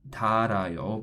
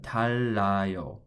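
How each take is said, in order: First: The middle consonant is a single light r. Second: The middle consonant is a doubled l sound. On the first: The speaker calls it wrong. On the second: The speaker calls it right.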